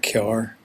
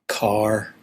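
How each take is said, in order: First: It is said in a County Down accent. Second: It is said in a standard accent. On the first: "To us" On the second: "find very hard to say"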